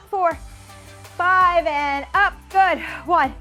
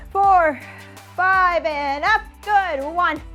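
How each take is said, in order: Both takes have the same delivery.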